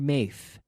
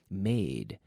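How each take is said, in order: First: The word ends with a soft th sound. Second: The word ends with a clear d sound. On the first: The speaker calls it wrong. "I don't want to hear maith" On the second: The speaker calls it right. "d, d, with my tongue touching behind my teeth"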